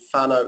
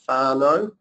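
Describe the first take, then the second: First: The first vowel is short. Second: The first vowel is long. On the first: The speaker calls it wrong. "rather than" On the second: The speaker calls it right. "a macron is a longer vowel"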